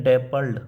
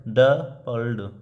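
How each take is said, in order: First: Said in the usual way. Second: डपल्ड split slowly into two beats, ड-पल्ड; syllables broken apart. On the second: Shown as a demonstration. Teacher showing Hopkins's stress to students, डपल्ड slowly syllable by syllable. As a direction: sound out डपल्ड slowly, leaning on the first syllable. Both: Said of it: "इस तरह से बोलता है".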